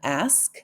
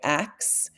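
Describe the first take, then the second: First: The word ends with an 'sk' sound. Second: The word ends with a 'ks' sound. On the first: It is the general American pronunciation. "general American English" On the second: It is a regional pronunciation of ask. "if I always say axe instead of ask"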